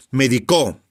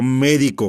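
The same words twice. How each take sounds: First: Medicó with the stress on the final CÓ; stress on last syllable. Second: Médico with the stress on MÉ; stress on first syllable. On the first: Teacher showing the meaning changes, Medicó stressed on the last syllable. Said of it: "una palabra aguda". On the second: Teacher showing how stress changes meaning, médico stressed on the first syllable. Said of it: "yo digo médico, una palabra esdrújula". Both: Shown as a demonstration.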